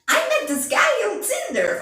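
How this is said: It is said in an exaggerated put-on voice.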